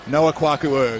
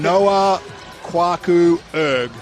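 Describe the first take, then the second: First: The name is said at a faster pace. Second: The name is said at a slower pace.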